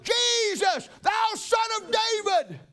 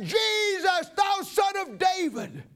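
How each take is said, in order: First: High shouted plea, slow on thou son of David; crying out. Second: High shouted plea, slowing on the last words; crying out louder. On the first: Blind Bartimaeus calls out to Jesus, high pleading shout. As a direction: call out to Jesus over the crowd. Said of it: "And I cried out". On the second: Bartimaeus cries louder to Jesus past the hushing crowd, high shout. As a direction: cry out again over the crowd telling him to hush. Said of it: "I cried the louder". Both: Acted.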